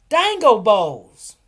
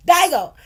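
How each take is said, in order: First: Dingo drawn out slowly and loud, DYE-ngo; savoring the name. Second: Digo said with long I, no n, laughing and loud; imitating customer saying Digo, said DYE-go; mispronounced name. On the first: Shown as a demonstration. Vendor proudly announcing her dish name, slow and loud. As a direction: relish Dingo, slowly, long I. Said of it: "they're dingo bowls". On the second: Customer keeps saying Digo, imitated loudly through a laugh. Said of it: "She keep calling it Digo".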